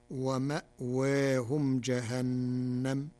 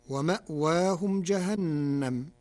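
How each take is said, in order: First: ومأواهم with a softened alif leaning toward ee, ma'weehum; slow Warsh recitation with taqleel; Warsh reading. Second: ومأواهم with a clear alif, wa-ma'waahum; loud recitation; standard reading. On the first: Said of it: "كما قلل الألف". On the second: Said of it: "قرأ ورش كلمة ومأواهم". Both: Shown as a demonstration.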